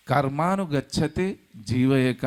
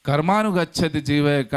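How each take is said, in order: First: Slow, measured chanting of the Sanskrit verse; slow scripture recitation. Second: Emphatic verse quote. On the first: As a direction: recite the verse slowly, each word weighed. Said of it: "అంటే ఆ soul మన లెక్కలంతా". (నెమ్మదిగా శ్లోక పఠనం) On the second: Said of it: "అంటే ఆ ఎలాంటి కర్మలు చేయాలి". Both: Shown as a demonstration.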